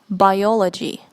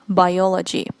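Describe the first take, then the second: The two takes are said the same way.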